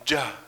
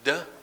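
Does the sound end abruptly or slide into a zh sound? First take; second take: slides; abrupt. First: A d sound that slides into zh. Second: A plain d sound that stops abruptly. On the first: The speaker calls it right. "but move on to the zh sound" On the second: The speaker calls it wrong. "don't just say duh"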